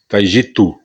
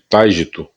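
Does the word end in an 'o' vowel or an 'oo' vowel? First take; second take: oo; o. First: The word ends in an 'oo' vowel. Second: The word ends in an 'o' vowel. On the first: The speaker calls it right. "O nome correto é Taijitu" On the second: The speaker calls it wrong. "aqui costuma chamar de Taijito"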